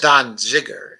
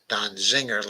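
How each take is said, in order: First: The second part sounds like 'ziger', without an n. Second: The second part sounds like 'zinger', with an n. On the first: The speaker calls it right. "It's Don Ziger, actually, I believe" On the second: The speaker calls it wrong. "I don't think it's uh, uh, uh, Don Zinger"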